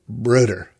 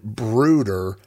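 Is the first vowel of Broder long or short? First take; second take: short; long. First: The first vowel is short and quick. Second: The first vowel is drawn out long. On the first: This is how a company founder says it. "He said Broder, like Broderbund, almost with the emphasis being on bund" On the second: This is how the speaker says it. "he doesn't say it long like I said Broder"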